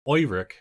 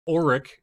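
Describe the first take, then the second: First: The name begins with an 'oy' sound. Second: The name begins without an 'oy' sound. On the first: "Oiric is another ... like O Y" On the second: "Auric is one"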